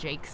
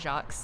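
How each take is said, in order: First: The name is said like 'jakes', rhyming with cakes. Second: The name is said the French way, like 'zhahk'. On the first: The speaker calls it right. "he pronounces it Jakes" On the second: The speaker calls it wrong. "it's not Jacques"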